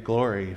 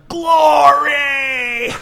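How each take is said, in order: First: The word is said softly with little energy. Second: The word is shouted with full breath and force. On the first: "Do you think it's like this?" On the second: "somebody totally giving all of their breath to make an expression"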